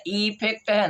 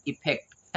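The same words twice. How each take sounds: First: "इफेक्ट" with a stretched, higher ee at the start; questioning wrong example, long-ee "इफेक्ट"; wrong long vowel. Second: "इफेक्ट" with a quick short i; right-example short-i "इफेक्ट"; correct short vowel. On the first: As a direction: overdo it as eee-fekt for "इफेक्ट". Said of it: "नहीं, इफेक्ट है ना". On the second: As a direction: start "इफेक्ट" on a brief i, unstretched. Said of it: "क्या हम करें?". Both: Shown as a demonstration.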